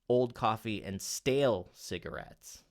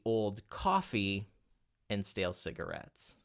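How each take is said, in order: First: The word stale is stressed. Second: The word coffee is stressed. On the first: The focus is on the type of cigarette. "what if you accent the word stale?" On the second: It is coffee and not something else. "what if we accent then the word coffee?"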